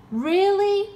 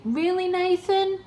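First: Very high, loud squeal on "Really?"; louder mock disbelief. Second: High, sarcastic "Really, Nathan?"; mock disbelief. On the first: Pushing the sarcasm at the agent, louder squealed disbelief. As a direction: push the fake shock even further. Mocking recovery agent's claim. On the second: Taunting the scam recovery agent, mock disbelief. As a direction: feign shock at Nathan's news, pitched up. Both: Real, not acted.

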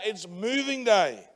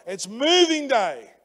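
First: Said in the usual way. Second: "It's moving day" said again, louder, with "moving" punched; louder, slower second take with stress on "moving"; louder repeat. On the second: Shown as a demonstration. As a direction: lift it the second time, slow and emphatic.

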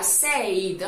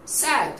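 First: Said with an "ei" glide like "seid"; wrong pronunciation. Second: Said with a short "e" like "sed"; correct pronunciation. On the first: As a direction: say said as "seid", the common mistake. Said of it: "tampoco sería said". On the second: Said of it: "simplemente sería said". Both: Shown as a demonstration.

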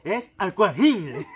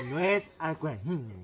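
First: Slow and louder insistence; mock gangoso insisting. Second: Slow, careful mock correction; mock gangoso. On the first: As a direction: drag the word Aquajine out. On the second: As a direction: lightly imitate the gangoso correcting. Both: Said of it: "le dice".

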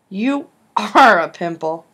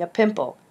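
First: Slow, louder grunt with are leaned on; grunted insult. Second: Said in the usual way. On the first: Acted. Darren mocking Logan's pimple, a slow loud grunt. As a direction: grunt You are a pimple flatly and slowly at him. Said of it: "Darren grunted". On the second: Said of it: "You are a pimple," Darren grunted".

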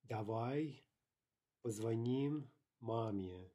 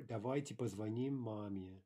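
First: Slow "Давай", pause, then drawn-out "позвоним маме"; word by word. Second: Said in the usual way. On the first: Shown as a demonstration. Teacher modelling how to suggest calling mom, slow word by word.

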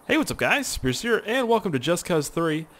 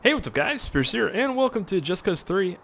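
First: High upbeat YouTuber greeting; energetic intro. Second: Bright high YouTuber greeting; energetic intro. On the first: Restarts intro take. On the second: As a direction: pump up the channel intro. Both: Acted.

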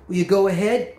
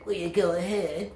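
First: Said in the usual way. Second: Softer parroting echo; mockingbird mimicry. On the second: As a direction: mimic the question back like a bird. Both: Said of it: "I'm a mockingbird".

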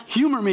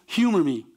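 First: Pleading humor me. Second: Said in the usual way. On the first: Shown as a demonstration. Pastor showing how to offer the Gospel prayerfully, coaxing. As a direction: coax the friend with a prayerful nudge. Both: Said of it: "with prayer, of course".

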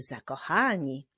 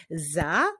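First: Said in the usual way. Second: "Zakochani" as za, ko, cha, ni with pauses; syllable by syllable. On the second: Shown as a demonstration. Teacher leading pupils in clapping, "Zakochani" split by syllable. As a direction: clap out "Zakochani" in four spaced beats. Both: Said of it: "wyklaszczmy sylaby w wyrazie zakochani".

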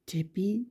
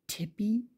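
The two takes are said the same way.

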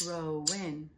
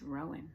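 First: Rowan in two separate beats, Ro-wan; syllable by syllable. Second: Said in the usual way. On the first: Shown as a demonstration. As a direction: clap out each syllable of Rowan. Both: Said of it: "Two syllables in Rowan".

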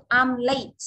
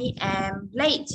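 First: Slow example. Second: Very slow, each word separate; slower repeat. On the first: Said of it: "Ví dụ". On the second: Teacher repeats the example very slowly to re-explain. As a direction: say it again, much slower. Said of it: "để cô nói lại lý thuyết này". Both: Shown as a demonstration.

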